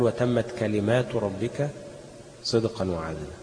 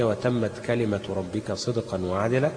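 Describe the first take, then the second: First: Slow recitation, long aa held in كلمات; plural reading. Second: Measured recitation, كلمة kept singular with short vowels; singular reading. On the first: Teacher shows the other readers' version, reciting كلمات in the plural. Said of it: "بالجمع". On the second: Teacher shows students Hafs's reading, reciting كلمة in the singular. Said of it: "بالإفراد". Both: Shown as a demonstration.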